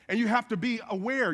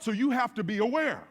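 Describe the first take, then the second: First: "have" leaned on, falling close; you HAVE to be aware, insist on the duty; the word "have" carries the weight; stress on have. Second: "you" leaned on, falling close; so YOU have to be aware, point at the listener; the word "you" carries the weight; stress on you. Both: Shown as a demonstration.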